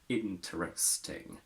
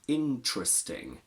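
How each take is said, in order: First: A weak vowel is kept between t and r. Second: No vowel between t and r; ch-like sound. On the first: The speaker calls it wrong. "not interesting" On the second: The speaker calls it right. "So we say interesting"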